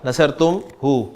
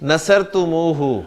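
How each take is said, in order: First: There is a break after tum before hu. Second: It flows joined with an added u before hu. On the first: The speaker calls it wrong. "ये मैं बीच में तुम पे रुक गया" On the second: The speaker calls it right. "तुमू कह देता है ... उसमें रिदम सा आ गया"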